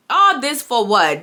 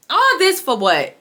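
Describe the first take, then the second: First: Said in the usual way. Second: Higher, slow, drawn-out complaint; exasperated. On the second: Real, not acted. Vlogger venting to viewers about the episode, exasperated. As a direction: let the letdown sound in the voice.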